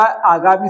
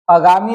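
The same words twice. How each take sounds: First: आगामी with long first aa; correct form. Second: आगामी with short first a, "agaami"; wrong form. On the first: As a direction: stretch the opening of आगामी: "aagaami". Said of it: "आगामी शब्द होता है". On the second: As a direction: clip the first vowel of आगामी. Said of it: "आगामी नहीं होता". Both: Shown as a demonstration.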